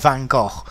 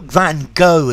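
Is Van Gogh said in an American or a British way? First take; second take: British; American. First: The name is said with a British pronunciation. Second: The name is said with an American pronunciation.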